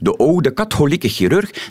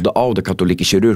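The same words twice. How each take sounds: First: The words use the proposed reformed sound values. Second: The words have their usual standard pronunciation. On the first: "wordt dan veel logischer progressief uitgesproken" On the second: "in de traditionele uitspraak"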